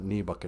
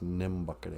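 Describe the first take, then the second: First: The word begins with a plain 'knee' sound. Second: The word begins with 'nim', adding an m. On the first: The speaker calls it wrong. "It's not knee bucket" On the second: The speaker calls it right. "it's nim bucket"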